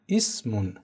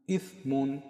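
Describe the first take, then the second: First: It is said with a plain s sound. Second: The tongue tip touches the teeth, giving th. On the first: The speaker calls it wrong. "به صورت فارسی تلفظش بکنم" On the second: The speaker calls it right. "نوک زبانم رو با دندانهای پیشین بالا همراه با عبور هوا از بین زبان و دندانهام به صورت کم حجم و ظریف تلفظش کردم"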